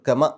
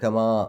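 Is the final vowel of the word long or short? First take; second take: short; long. First: The final vowel is cut short. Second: The final vowel is drawn out long. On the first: "ആ നീട്ടൽ നഷ്ടപ്പെട്ടു. കമ എന്നേ പറയുള്ളൂ" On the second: "കമാ എന്ന് ശരിക്കും അവിടെ നീട്ടാനുണ്ട്"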